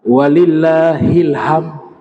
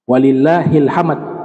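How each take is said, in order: First: The ending sounds like ilham, with no final d. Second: The ending is hamd, with the final d sounded. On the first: The speaker calls it wrong. "kadang-kadang terdengar walillahilham. Kalau jadinya kayak ilham" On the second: The speaker calls it right. "Padahal lafaz takbir yang dibaca itu walillahi alhamd"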